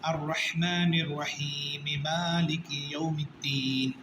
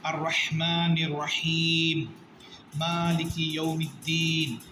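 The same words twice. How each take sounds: First: The two verses run together without a pause. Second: There is a pause between the two verses. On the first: The verses are joined in one reading. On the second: Each verse is read on its own.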